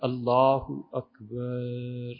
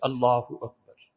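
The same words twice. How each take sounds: First: The phrase is said with vowels stretched out long. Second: The phrase is said briefly without stretching vowels. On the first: The speaker calls it wrong. "یہ سب طریقے فقہا نے سختی سے منع لکھے ہیں" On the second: The speaker calls it right. "آہستہ بالکل مختصر"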